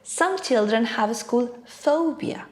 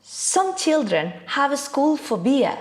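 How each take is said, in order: First: Put-on "Some children have school phobia" with clear "school"; right stress. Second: "school phobia" slurred into "a school phobia"; wrong stress. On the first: Teacher showing correct stress. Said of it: "what I really meant was". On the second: Teacher demoing wrong word stress. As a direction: run "Some children have a school phobia" together. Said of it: "I would be using the wrong stress". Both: Shown as a demonstration.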